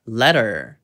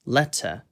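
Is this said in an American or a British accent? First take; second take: American; British. First: American accent, with a curled r sound. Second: British accent, with a clear t sound. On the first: "미국식으로는 letter, letter 이렇게 R 꼬는 것까지 살려서" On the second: "영국식으로는 letter, letter 이렇게 T 소리를 살리고"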